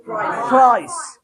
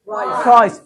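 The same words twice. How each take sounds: First: प्राइस slowly as फ्राइस, rising; mocking F for P. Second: Said in the usual way. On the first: Shown as a demonstration. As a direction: stretch प्राइस with an F start. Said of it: "क्या जी". (प्राइस को फ्राइस कहकर खींचें) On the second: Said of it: "प्राइस नहीं".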